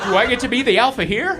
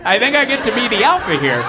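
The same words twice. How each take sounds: First: High, quick question rising on "here"; eager question. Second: Loud, high claim falling after "alpha"; cocky claim. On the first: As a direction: ask it fast, lifting up at "here". Eager play at joining wolf pack. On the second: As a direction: assert it, hitting "alpha" and dropping at "here". Answers own question, claiming alpha. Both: Acted.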